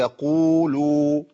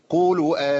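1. يُمَدّ مدّه الكامل. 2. يُسرَع فيه بالمدّ ويُقصَر. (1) "لازم اوزن المدود" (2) "انا كده جريت بالمد الطبيعي"

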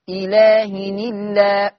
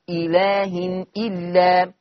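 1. الهمزة تُحذف، وحركتها تنتقل إلى النون. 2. الهمزة قبل الكلمة الثانية تُنطق. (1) "فتقرأ حينئذ إلهن الله، هكذا تقرأ" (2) "هتكتب إزاي؟"

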